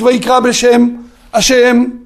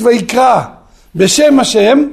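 First: There is a pause before the last word. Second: The last two words run together without pause.

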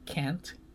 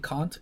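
First: It is said with an American pronunciation. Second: It is said with a Malaysian pronunciation. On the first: "you guys say can't" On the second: "Like I say can't"

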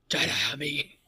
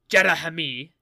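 First: The name is said with a throaty sound. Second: The name is said without much throatiness. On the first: The speaker calls it right. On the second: The speaker calls it wrong. "You're not getting throaty enough with it"

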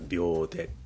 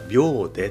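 First: It has the newer slang pitch accent. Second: It has the standard, original pitch accent. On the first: It means instantly, without any effort. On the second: It means seconds as a unit of time.

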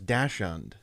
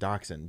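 First: It is pronounced the way the spelling looks. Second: It is pronounced like 'doxon'. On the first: The speaker calls it wrong. "I always read that as Dachshund because I never knew" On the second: The speaker calls it right. "how you're supposed to say it, dachshund, D-O-X-O-N"

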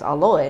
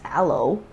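First: The word ends with an 'oy' sound. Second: The word ends with an 'oh' sound. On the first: "that's why we grew up knowing it as aloy" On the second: "not as aloe"

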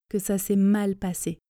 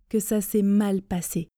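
The two takes are said the same way.

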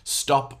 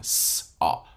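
First: The t sound after the s is heard. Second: The t sound after the s is missing. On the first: "when you're hearing the word like stop" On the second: "They can't hear the t in there"

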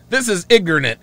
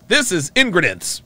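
First: The last word is pronounced in the standard way. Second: The last word is pronounced in a garbled way. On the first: "I can't even say it wrong" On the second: "Yes, that's it"

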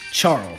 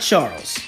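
First: The name ends with an l sound. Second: The name ends with an s sound. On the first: The speaker calls it right. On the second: The speaker calls it wrong. "Not Charles"

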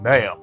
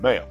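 First: It is said noticeably louder. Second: It is said at a normal, quieter volume.

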